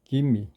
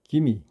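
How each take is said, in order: The two takes are said the same way.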